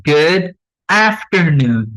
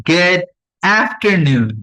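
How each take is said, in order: The two takes are said the same way.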